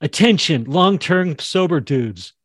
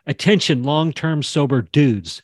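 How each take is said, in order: First: Announcing callout. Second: Demo callout. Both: Shown as a demonstration. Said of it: "She could say it just like that".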